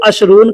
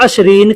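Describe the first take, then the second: First: अशरून with a long oo before n; oo-vowel variant. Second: अशरीन with a long ee before n; ee-vowel variant. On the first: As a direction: say अशरून ending in -oon. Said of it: "बहुत से लोग अशरून कहते हैं". (ऊ की आवाज़ वाला अशरून) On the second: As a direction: say अशरीन ending in -een. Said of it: "बहुत से लोग अशरीन कहते हैं". (ई की आवाज़ वाला अशरीन) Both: Shown as a demonstration.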